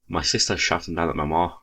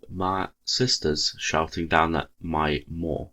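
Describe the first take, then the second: First: It is read in a Scottish accent. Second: It is read in a regular, non-Scottish accent. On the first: "you convert that" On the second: "I'll do it in regular accent"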